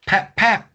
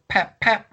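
First: Sharp high pap pap, punched; high window smash sound. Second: Sharp high pap pap again; high window smash sound. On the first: Imitating the tool breaking the window, sharp pap pap. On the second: Imitating the second window break, sharp pap pap. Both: Retold or imitated. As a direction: mimic a tool smashing glass.

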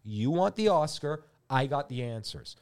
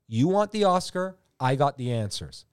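First: Slower and calmer repeat. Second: Loud pitch. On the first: Pitching to the director, slower repeat. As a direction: say it again slowly, letting it land. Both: Shown as a demonstration. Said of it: "I'm gonna say it again".

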